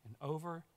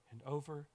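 No difference in how they are said.

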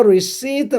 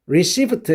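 First: "receipt" with the P sounded, ri-SEEPT; "receipt" wrongly ending in -pt; mispronounced receipt. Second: "receipt" said as ri-SEET, no P sound; "receipt" ending in a clean -eet; silent P in receipt. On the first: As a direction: pronounce the silent P in "receipt". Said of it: "이런 식으로 하면 안 됩니다". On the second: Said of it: "여기서 영수증이란 단어 발음할 때". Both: Shown as a demonstration.

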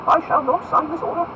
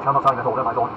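First: High, loud incredulous question; ringing lordly outrage; indignant exclamation. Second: Firm forbidding. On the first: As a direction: throw the order back in disbelief. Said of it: "exclaimed Buckingham". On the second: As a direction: forbid the Duke firmly. Felton forbids the Duke. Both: Acted.

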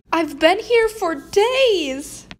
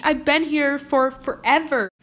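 First: Slow, drawn-out, stretching "here" with a falling tune; milk it like a tragedy, slowly; dramatic complaint. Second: Said in the usual way. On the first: Acted. Kid guilt-tripping mom after being lost, slow and dramatic.

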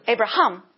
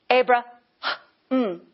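First: Said in the usual way. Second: Abra-, long airy H, then mm; breath mid-name. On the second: Shown as a demonstration. Preacher repeating the changed name, Abraham split by a breath. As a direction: break Abraham open with an audible breath. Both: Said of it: "put the breath right in the middle".

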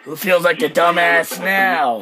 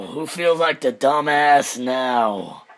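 First: Said in the usual way. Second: Drawn-out smug repeat; slow gloating taunt. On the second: Real, not acted. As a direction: savour each word slowly.

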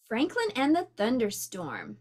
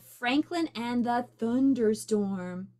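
First: Said in the usual way. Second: Thunderstorm slowed and drawn out; dramatic title. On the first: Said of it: "called Franklin and the". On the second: Shown as a demonstration. Announcing the title to the children, drawn out. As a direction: stretch out Thunderstorm for suspense.

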